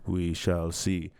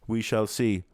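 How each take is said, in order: First: We shall see drawn out slow and low. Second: Said in the usual way. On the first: Shown as a demonstration. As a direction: let "We shall see" sink slowly. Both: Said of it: "repeats phrase in varied ways".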